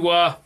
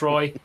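First: The name is said like 'wah'. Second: The name is said to rhyme with 'boy'. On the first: "apparently it's pronounced Wah" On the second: "I know it's Roy"

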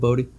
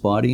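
First: The first vowel sounds like in 'boat'. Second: The first vowel sounds like in 'body'. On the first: The speaker calls it wrong. "instead of Bodie" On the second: The speaker calls it right. "why it's pronounced Bodie"

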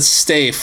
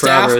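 First: The vowel is a long 'ay' as in safe. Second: The vowel is a short 'a' as in laugh. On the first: "I'll pronounce it Stafe, like Rafe Fiennes" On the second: "It'll be pronounced Staff"

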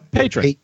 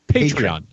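First: The word is said with two syllables. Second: The word is said with three syllables. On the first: The speaker calls it wrong. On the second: The speaker calls it right.

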